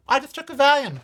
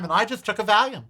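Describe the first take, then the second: First: Valium tossed up much higher, pitched up in disbelief at himself; incredulous high emphasis. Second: Said in the usual way. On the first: Real, not acted. Vlogger recalling his old pill habit, pitched up in disbelief. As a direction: marvel at how casually he popped pills.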